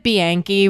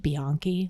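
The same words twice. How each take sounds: First: The name is said with a New York pronunciation. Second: The name is said with an Italian pronunciation. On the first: The speaker calls it wrong. "which is how I'll always pronounce it because I'm from New York and I have an accent" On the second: The speaker calls it right. "like if you were pronouncing it in the real Italian way"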